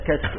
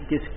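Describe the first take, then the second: First: The first vowel is an open 'a' sound. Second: The first vowel is a close 'i' sound. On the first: This is the form of the standard language. "فلعل اللغة الصحيحة فيها كشك" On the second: This is the everyday Egyptian form. "عند المصريين كشك بكسر الكاف"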